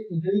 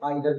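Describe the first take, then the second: First: The first vowel sounds like 'ee'. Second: The first vowel sounds like 'eye'. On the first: "इसे ईदर भी पढ़ सकते हैं" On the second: "इसे आइदर भी पढ़ सकते हैं"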